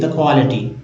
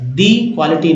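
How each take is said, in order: First: 'The' is said with a short 'uh' vowel. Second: 'The' is said with a long 'ee' vowel. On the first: The speaker calls it right. "द पढ़ेंगे, क्योंकि यही जो है सही है" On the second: The speaker calls it wrong. "दी नहीं पढ़ेंगे"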